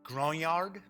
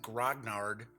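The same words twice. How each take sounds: First: The word has a French-style pronunciation. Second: The word has an English-style pronunciation. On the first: The speaker calls it right. "French pronunciation is grognard" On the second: The speaker calls it wrong. "For years, I've always said grognard"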